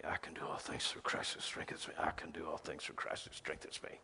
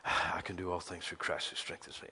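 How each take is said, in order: First: Whispered repetition, voiceless and soft; whispered verse. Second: A sigh, then the verse murmured low and soft; muttered verse. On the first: Believer repeating the verse in a whisper. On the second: Believer muttering the verse to replace worry, softly. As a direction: breathe out and murmur the promise. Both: Retold or imitated. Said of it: "You say".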